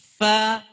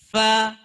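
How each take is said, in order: Both takes have the same delivery.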